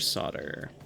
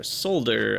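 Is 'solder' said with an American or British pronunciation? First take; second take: American; British. First: It is said with an American pronunciation. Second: It is said with a British pronunciation.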